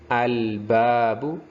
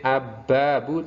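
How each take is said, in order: First: The L is clearly heard before the B. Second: The L merges into a doubled B sound. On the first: The speaker calls it right. "tapi harus terbaca al" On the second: The speaker calls it wrong. "jangan sampai ab-babu"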